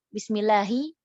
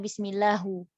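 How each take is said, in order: First: The word ends with an 'i' vowel. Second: The word ends with a 'u' vowel. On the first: The speaker calls it right. "Harusnya bismillahi" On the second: The speaker calls it wrong. "malah bismillahu"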